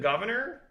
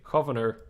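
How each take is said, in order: First: The G sounds like a plain English G. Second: The G is a throaty hard G sound. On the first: "Is it governor or is it different?" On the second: "You mean they would say governor?"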